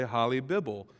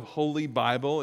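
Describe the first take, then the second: First: Holly Bibble said as HOL-ee BIB-bul, short o and short i; mispronounced Holy Bible. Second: Said in the usual way. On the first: Shown as a demonstration. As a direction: read Holly Bibble like a clumsy text-to-speech voice. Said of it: "instead of Holy Bible, it really would say Holly Bibble". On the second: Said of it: "it really would say Holly Bibble".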